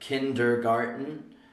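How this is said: American accent, with the r sounds clearly pronounced. "An American would say kindergarten"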